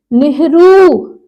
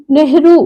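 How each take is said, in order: First: नेहरू slowly, rū drawn out; long final vowel. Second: नेहरू quickly, ending not held; short final vowel. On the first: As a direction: stretch the end of नेहरू. (नेहरू में ऊ खींचकर) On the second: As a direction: clip the last vowel of नेहरू. (नेहरू में छोटा उ) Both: Shown as a demonstration. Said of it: "ये छोटे ऊ की मात्रा".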